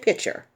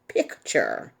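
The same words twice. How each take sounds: First: The 'k' sound before 'ture' is left out. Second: The 'k' sound before 'ture' is pronounced. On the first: The speaker calls it wrong. "Most people just say picture" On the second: The speaker calls it right. "There is a C in picture"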